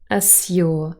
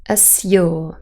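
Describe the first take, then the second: First: The middle sounds like 'zyu', with separate z and y. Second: The same.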